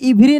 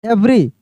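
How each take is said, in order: First: The word begins with an 'ee' vowel. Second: The word begins with an 'eh' vowel. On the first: The speaker calls it wrong. "इवरी नहीं पढ़ेंगे" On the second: The speaker calls it right. "इसको पढ़ देंगे हम लोग एवरी"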